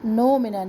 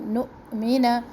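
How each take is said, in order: First: The hamza glides smoothly with no catch. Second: The hamza has a glottal catch, breath unbroken. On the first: The speaker calls it wrong. "नो मिना ना हो" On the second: The speaker calls it right. "झटका होगा हमजा में लेकिन सांस नहीं टूटेगी"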